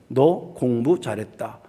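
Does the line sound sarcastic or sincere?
sincere. It is said as sincere, plain praise.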